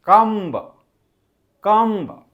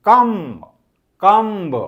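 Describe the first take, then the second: The two takes are said the same way.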